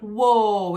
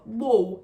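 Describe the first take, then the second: First: A long, drawn-out sound without the sob. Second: A short, small, sobbing cry sound. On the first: The speaker calls it wrong. "it's not a long sound" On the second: The speaker calls it right. "It's a small sound"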